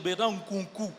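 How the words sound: The name is said with a Brazzaville-style tonality. The name has been changed by life in another country. "ça a changé"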